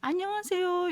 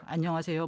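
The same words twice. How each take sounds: First: The greeting is said in a high voice. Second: The greeting is said in a low voice. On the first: The worker performs the cheerful tone the job demands. "이렇게 높은 톤으로" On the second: The worker answers in a natural voice. "제가 지금 목소리가 저음인데 안녕하세요 뭐 이렇게 받는 게 아니라"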